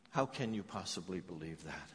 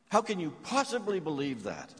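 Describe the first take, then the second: First: Softer and lower, turned over thoughtfully; quiet reflective echo. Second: Louder and higher, pressing the question; incredulous challenge. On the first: Real, not acted. Preacher echoing the mother's question to the congregation, quiet and lower. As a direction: ask it of yourself, quietly. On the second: Acted. Grieving mother demanding of the narrator, incredulous and louder. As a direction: demand an answer in disbelief.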